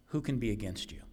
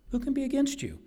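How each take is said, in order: First: Said in the usual way. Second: Much higher, ringing rhetorical question; preacher's defiant high-pitched challenge; soaring rhetorical question. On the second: Acted. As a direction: lift the question high in triumph.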